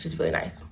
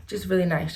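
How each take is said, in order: First: Breathy whispered repeat, softer. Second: Said in the usual way. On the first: Real, not acted. Remembering her sweet teacher, whispered fondly. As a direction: drop to a whisper on the echo.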